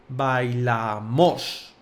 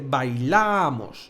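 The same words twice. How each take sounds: First: The stress is on the final syllable. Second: The stress is on the middle syllable. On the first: "con acento en la O" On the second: "en vez de"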